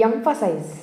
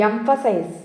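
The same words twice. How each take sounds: Both takes have the same delivery.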